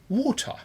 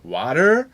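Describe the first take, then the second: First: It is said in a British accent. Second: It is said in a stronger American accent. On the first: "der Brite teilweise Water" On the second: "manche sogar Water"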